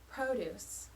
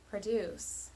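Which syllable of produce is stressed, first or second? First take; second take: first; second. First: The stress is on the first syllable. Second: The stress is on the second syllable. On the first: "The first, long, short" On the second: "second, short, long"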